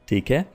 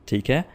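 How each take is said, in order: The two takes are said the same way.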